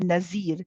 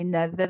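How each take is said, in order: First: The middle consonant is a buzzing z sound. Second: The middle consonant is a th sound, tongue between teeth. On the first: The speaker calls it wrong. "A common mistake sometimes in some uh, cultures is to say Nazir" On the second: The speaker calls it right. "So we say na the the the"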